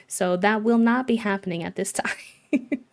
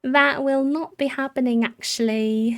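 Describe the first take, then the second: First: Refusing with a laugh near the end; playful no, breaking into a laugh; a measured no that cracks into laughter; amused refusal. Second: Higher, emphatic playful refusal; mock-firm no, easing off at the end. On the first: Lightly refusing villager's wish to leave. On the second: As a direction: put your foot down, pitched up. Repeats the refusal more firmly. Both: Real, not acted.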